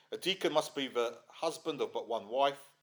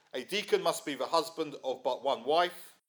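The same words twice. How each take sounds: The two takes are said the same way.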